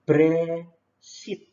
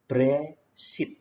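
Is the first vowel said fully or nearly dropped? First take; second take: nearly dropped; nearly dropped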